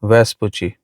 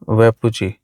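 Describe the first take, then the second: First: An s sound is heard before the p. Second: No s sound is heard before the p.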